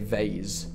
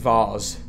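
First: It is said with an American pronunciation. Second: It is said with a British pronunciation. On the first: The speaker calls it wrong. "I got Americanized, and now I say vase" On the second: The speaker calls it right. "I want to go back to saying vase. The British way"

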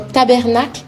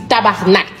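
First: The word is said as 'ta-ber-nacle'. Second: The word is said as 'ta-bar-nak'. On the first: The speaker calls it wrong. "C'est pas tabernacle" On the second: The speaker calls it right. "c'est tabarnak"

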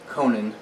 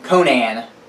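First: The name is said without a Midwestern drawl. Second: The name is said in a Midwestern drawl. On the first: The speaker calls it right. "I'm trying to pronounce Conan correctly" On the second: The speaker calls it wrong. "which is the way I like to say it with my Midwestern draw"

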